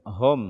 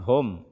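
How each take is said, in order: The two takes are said the same way.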